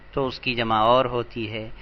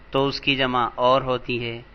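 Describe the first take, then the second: No difference in how they are said.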